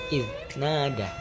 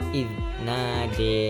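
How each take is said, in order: First: The final vowel is a plain open a. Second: The final vowel leans toward an e. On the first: "yang biasa kita baca pada Imam Hafaz" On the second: "membacanya dengan e, yaitu sukro tipis"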